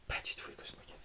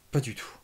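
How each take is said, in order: First: Répété dans un souffle, à voix basse; chuchoté. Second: Said in the usual way. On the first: Shown as a demonstration. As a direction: murmure amusé pour soi. (redire « Pas du tout » en chuchotant)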